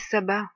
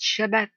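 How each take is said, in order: First: The word begins with a plain 's' sound. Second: The word begins with a 'sh' sound. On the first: It is the term altered by people. The speaker calls it wrong. "ne dites plus sabbat" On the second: It is the original biblical term. The speaker calls it right. "dites Shabbat"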